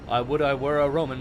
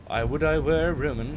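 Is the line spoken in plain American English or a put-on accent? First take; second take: American; put-on accent. First: It is spoken in a plain American accent. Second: It is spoken in a put-on, non-American accent. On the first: "in regular American English" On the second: "I gotta find an accent for that"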